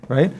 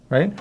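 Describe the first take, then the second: No difference in how they are said.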